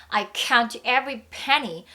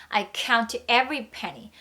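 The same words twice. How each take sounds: No difference in how they are said.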